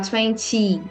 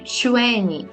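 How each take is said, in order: First: The second syllable is stronger than the first. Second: The first syllable is stronger than the second. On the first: The speaker calls it wrong. "A gente não falar" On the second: The speaker calls it right. "seja mais forte que o fim"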